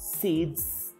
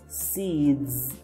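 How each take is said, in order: First: The final sound is a voiceless hiss. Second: The final sound is a voiced buzz. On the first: The speaker calls it wrong. "It is not seeds" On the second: The speaker calls it right. "make it like zzz, with a vibration in your throat"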